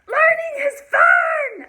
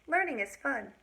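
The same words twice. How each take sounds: First: It is said with strong feeling and lively pitch. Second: It is said flatly, with an even pitch. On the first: It is an exclamation full of emotion. "Now I didn't say" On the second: It is just a plain statement. "I didn't say this with a lot of feeling and emotion, my voice just kind of stayed about the same"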